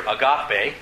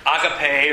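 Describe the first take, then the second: First: AGAPE drawn out as uh-GAH-pay; stress on second syllable. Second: AGAPE drawn out as AH-guh-pay; stress on first syllable. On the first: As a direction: hit the middle GAH of agape. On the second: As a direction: hit the opening AH of agape. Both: Shown as a demonstration. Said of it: "what syllable you put the emphasis".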